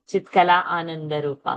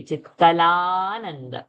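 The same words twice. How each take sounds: First: "Chitkala Ananda Rupa" with a fresh a starting "Ananda"; separated words. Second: "Chitkalananda" as one word, slow long aa; joined, held vowel. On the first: Teacher showing the avagraha mistake, "Ananda" said separately after "Chitkala". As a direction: split "Chitkala" from "Ananda", sounding both vowels. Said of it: "So we should not say". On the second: Teacher showing correct sandhi, "Chitkalananda" joined with a long aa. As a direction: run "Chitkalananda" together, holding the middle aa. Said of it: "we don't have to say ananda separately".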